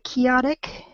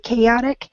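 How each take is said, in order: First: The first vowel is not the letter-A sound. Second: The first vowel is the letter-A sound. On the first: The speaker calls it wrong. "it sounded more like chaotic" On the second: The speaker calls it right. "spelled with an A. So if you just say chaotic"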